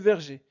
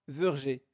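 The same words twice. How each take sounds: First: The first vowel is an open è. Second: The first vowel is not an open è. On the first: The speaker calls it right. "E se prononce E car nous avons deux consonnes R et G" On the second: The speaker calls it wrong. "ne prononcez pas verger"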